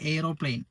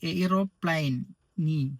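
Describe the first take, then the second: First: It is said normally with a silent final e. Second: It is said as spelled, sounding the final e.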